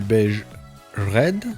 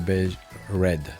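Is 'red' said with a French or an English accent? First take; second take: French; English. First: Red is said with a strong French accent. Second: Red is said with a more English accent. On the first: The speaker calls it wrong. "j'ai une prononciation anglaise qui est fantastique" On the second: The speaker calls it right. "Là c'est mieux"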